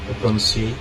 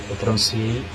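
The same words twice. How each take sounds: Both takes have the same delivery.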